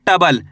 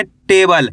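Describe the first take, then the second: First: टबल with a short "uh" in place of "ay"; टबल misread without the e sign; wrong pronunciation. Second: टेबल with a long "ay" vowel in टे; टेबल read with the e sign sounded after ट; correct pronunciation. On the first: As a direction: say टबल as "TUH-bal", dropping the e vowel. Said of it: "ऐसे नहीं पढ़ना आपको". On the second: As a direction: say टेबल as "TAY-bal", first vowel held. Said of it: "ऐसे नहीं पढ़ना आपको टबल". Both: Shown as a demonstration.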